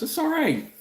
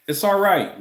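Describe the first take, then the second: First: Pitched way up in a squeak; squeaky high. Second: Said in the usual way. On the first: Real, not acted. Brushing off the apology in a squeaky high voice.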